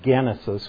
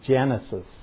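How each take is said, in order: First: The G is hard, as in 'get'. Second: The G is soft, as in 'gem'. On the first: This is the original Greek sound. "We don't say Genesis" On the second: This is the anglicized sound. "we soften that G"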